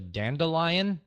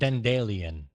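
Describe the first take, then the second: First: It is said in the speaker's usual English accent. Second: It is said the way a Croatian speaker says it. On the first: "we have a weed here called a dandelion" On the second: "there he pronounced it dandelion"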